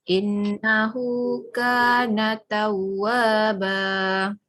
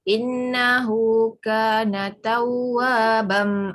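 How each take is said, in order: First: The last word ends with a long vowel. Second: The last word ends with an m sound. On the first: The reader stops after the word. The speaker calls it right. "kita baca ba sahaja disebabkan kita nak berhenti" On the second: The word is read without stopping after it. The speaker calls it wrong. "Ada huruf mim tu"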